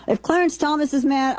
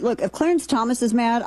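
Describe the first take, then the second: First: If Clarence Thomas is mad, pitched much higher and pushed; emphatic repeat. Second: Said in the usual way. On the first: Real, not acted. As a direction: lift the whole line up high, hitting Clarence.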